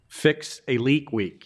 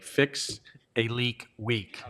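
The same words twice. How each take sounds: First: It is said at normal speed. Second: It is said very slowly.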